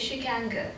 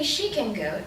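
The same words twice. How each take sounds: First: The word go carries the main stress. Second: The word she carries the main stress. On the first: A neutral statement that she is able to go. "which is a kind of normal situation" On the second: She, not someone else, is able to go. "it's because we mean, well, she can go, I can't, I'm busy"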